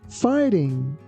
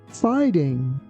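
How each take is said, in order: No difference in how they are said.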